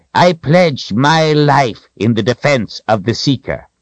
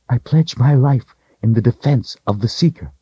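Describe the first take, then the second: First: Wizard's pledge. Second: Lightly voiced woman, higher pitch; kneeling woman's pledge. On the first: Wizard kneels beside her to swear, high firm pledge. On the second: Kaelin kneels before Richard, higher-pitched solemn pledge. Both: A narrator's reading.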